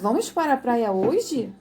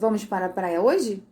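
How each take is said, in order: First: It is said as an emphatic exclamation. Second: It is said as a flat statement.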